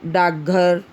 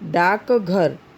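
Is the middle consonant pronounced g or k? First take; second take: g; k. First: The middle consonant is pronounced as g. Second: The middle consonant is pronounced as k. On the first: "ग" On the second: "क"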